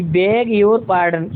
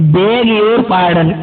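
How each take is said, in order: First: Very slow, each word drawn out; slow teaching demo at normal level; slow model phrase. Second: Very slow and a bit loud, every word drawn out; slow, loud teaching demo; slow model phrase. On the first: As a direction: spell it out slowly for the class. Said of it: "ये sentence बोल सकते हैं". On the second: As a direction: say it slowly so students copy. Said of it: "क्या बोलेंगे". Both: Shown as a demonstration.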